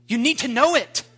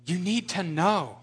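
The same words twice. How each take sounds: First: 1 emphatic. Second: Said in the usual way. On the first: Real, not acted.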